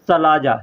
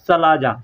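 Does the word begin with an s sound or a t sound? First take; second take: s sound; s sound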